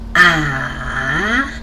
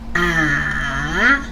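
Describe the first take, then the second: The two takes are said the same way.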